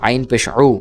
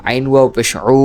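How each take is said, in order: First: Said in the usual way. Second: Long, sustained final উ; elongated vowel. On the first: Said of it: "এটা স্বাভাবিক উচ্চারণ হরকতের". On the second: Shown as a demonstration. Teacher repeating ain for students, উ held long. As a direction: draw the last উ right out. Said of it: "এইভাবে উচ্চারণ হবে".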